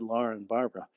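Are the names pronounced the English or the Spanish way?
English. The names are pronounced with English sounds. It would have fit in with the listeners. The speaker calls it right. "maybe I should have said"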